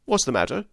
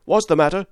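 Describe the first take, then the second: First: Said in the usual way. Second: High, loud shouted question; called out. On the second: A narrator's reading. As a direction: shout across the dark river. Master calls across the river.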